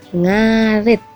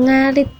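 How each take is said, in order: First: The last vowel is a more open i. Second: The last vowel is a pure, close i. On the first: This is the word as it is actually spoken. "dibacanya ngarit" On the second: This is the word as it is written. "Tulisannya ngarit"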